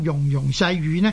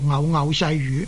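First: The first two syllables are pronounced 'yung'. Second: The first two syllables are pronounced 'ngau'. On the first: This is the reading most people habitually use. "在习惯上读做容容就是一般人的习惯呢都是这样读的" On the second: This is a less familiar but still valid reading. "若果呢读做偶偶呢就似乎呢很刺耳，但是呢它不是读错"

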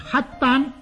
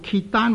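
First: The first syllable sounds like hak. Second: The first syllable sounds like kit. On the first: The speaker calls it right. "称为黑丹" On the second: The speaker calls it wrong. "若果读做揭丹或者舌丹呢，是读错了的"

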